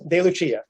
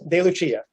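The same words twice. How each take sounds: First: The name is pronounced the Italian way. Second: The name is pronounced the Italian way.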